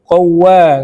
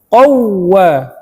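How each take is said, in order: First: The doubled w is said flat, without emphasis. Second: The doubled w is emphasized with a slight rise. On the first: The speaker calls it wrong. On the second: The speaker calls it right.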